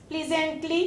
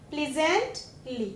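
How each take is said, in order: First: Said in the usual way. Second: pleasantly slow and soft, pause before ली; soft, slow pleasantly with ली trailing apart; split before suffix. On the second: Shown as a demonstration. Word split to show suffix.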